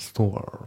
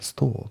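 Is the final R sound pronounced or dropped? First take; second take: pronounced; dropped. First: The word ends with a clear R sound. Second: The word ends without an R sound. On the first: "アメリカ英語だったらストアって感じでR がちゃんとね発音される" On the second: "イギリス英語だからストアって感じですね"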